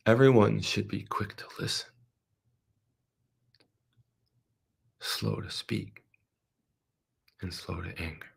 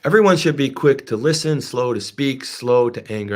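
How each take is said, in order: First: Soft scripture reading. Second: The verse proclaimed louder, strong on everyone; emphatic scripture. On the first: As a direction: read the verse gently and let it die away. Preacher reads the verse to congregation. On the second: Preacher proclaiming the verse again to the congregation, emphatic. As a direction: declare the verse with force. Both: Acted.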